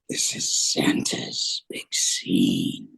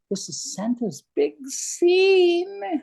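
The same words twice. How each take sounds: First: It is said in a terrifying monster voice. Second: It is said in a put-on leprechaun voice. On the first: "That's terrifying. Was that Krampus?" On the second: "You didn't know that leprechauns could be elves, could you?"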